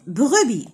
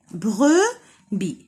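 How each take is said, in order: First: Said in the usual way. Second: Brebis split into "bre", pause, "bi"; syllable by syllable. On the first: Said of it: "deux syllabes". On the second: Shown as a demonstration. Teacher counting syllables for children, brebis broken in two. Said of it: "Donc عندنا deux syllabes".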